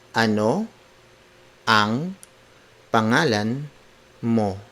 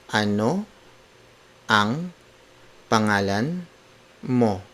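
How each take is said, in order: The two takes are said the same way.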